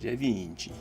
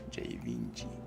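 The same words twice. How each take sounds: First: It is said with an exaggerated Italian accent. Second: It is said in a plain, unaccented voice.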